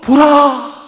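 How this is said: It is said as an emotional exclamation. The speaker calls it right. "감탄문이죠"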